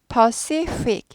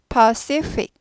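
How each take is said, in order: Both takes have the same delivery.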